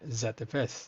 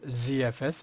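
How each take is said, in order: First: The letter Z is said a non-American way. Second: The letter Z is said the American way. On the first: "I would say Z F S" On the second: "American says Z F S because they pronounce Z in different way"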